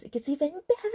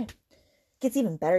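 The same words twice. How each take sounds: First: High, rising mock delight; sarcastic teasing. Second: Said in the usual way. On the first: Real, not acted. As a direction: repeat it climbing up high in exasperated irony.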